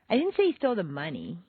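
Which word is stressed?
money. The stress is on the word money.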